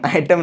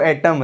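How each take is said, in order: First: The first vowel sounds like 'eye'. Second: The first vowel sounds like 'eh'. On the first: The speaker calls it wrong. "बहुत लड़का बोल देता है इसको आइटम, आइटम नहीं भाई साहब" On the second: The speaker calls it right. "एटम है"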